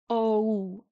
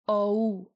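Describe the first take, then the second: The two takes are said the same way.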